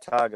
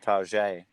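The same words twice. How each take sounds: First: It is said with a plain English pronunciation. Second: It is said with a French-style pronunciation.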